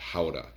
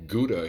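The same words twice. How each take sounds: First: The word has a Dutch pronunciation. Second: The word has an American English pronunciation. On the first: This is how it is called in its home town. "in Holland, in a little town called Gouda, they pronounce it Gouda" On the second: This is how it is called in the United States. "we like to call Gouda here in the uh, United States"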